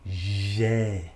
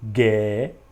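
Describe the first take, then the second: First: It starts with a soft zh sound. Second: It starts with a hard g sound. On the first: This is how it is actually pronounced. The speaker calls it right. "faz o som Gé" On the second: This is how it would sound if spelling were regular. The speaker calls it wrong. "na lógica você teria G"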